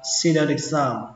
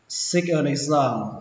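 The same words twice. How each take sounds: First: The t links on as a d sound. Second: The t is said as a clear t.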